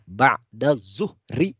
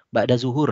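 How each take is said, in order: First: The last word ends with an added -ri sound. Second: The last word ends with a plain -ur sound. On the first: The speaker calls it right. "Yang benar adalah ba'da zuhri" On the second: The speaker calls it wrong. "Kita sering menyebut ba'da zuhur. Nah, itu salah ya"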